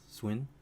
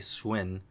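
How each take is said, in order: First: The w sound is soft and weak. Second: The w sound is strong and full. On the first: The speaker calls it right. "It's kind of like a, a softer W" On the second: The speaker calls it wrong. "You don't say swin"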